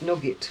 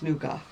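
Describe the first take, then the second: First: It is said like the English word nugget. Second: It is said the French way, like noo-gah. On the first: This is the pronunciation learned in childhood. The speaker calls it wrong. "I was brought up calling it Nugget" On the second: This is the proper French pronunciation. The speaker calls it right. "when you grow older and you take French, you realise it's Nougat"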